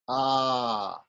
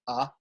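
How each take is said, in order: First: The vowel is held for the longest time. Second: The vowel is held very briefly. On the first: "and if it's even longer" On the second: "If it's short"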